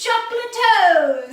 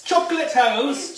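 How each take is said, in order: First: Very loud, high squeal; excited shout. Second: Loud, high, drawn-out cry; excited shout. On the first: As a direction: scream it back with glee. Echoing the shout even louder. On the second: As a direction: shout it out delighted. Shouting a silly exclamation. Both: Real, not acted.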